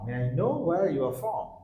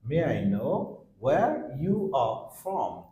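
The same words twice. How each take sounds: First: It is spoken quickly with the words run together. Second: It is spoken at a normal, unhurried speed.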